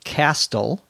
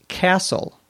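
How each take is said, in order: First: The T sound is pronounced. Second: The T sound is silent. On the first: The speaker calls it wrong. "not castle" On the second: The speaker calls it right. "many words in English have what we may call a silent T"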